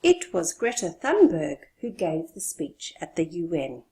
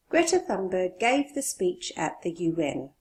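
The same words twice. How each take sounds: First: Greta Thunberg punched; stress on Greta Thunberg. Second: Said in the usual way. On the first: Shown as a demonstration. Teacher stresses Greta Thunberg over anyone else. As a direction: hit the name Greta Thunberg. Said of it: "Stressing her, not another person". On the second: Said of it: "Stressing her".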